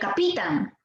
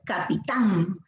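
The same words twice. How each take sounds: First: The stress is on the middle syllable. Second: The stress is on the last syllable. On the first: The speaker calls it wrong. "Si fuera Pi, sería capitán" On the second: The speaker calls it right. "Lo correcto es capitán"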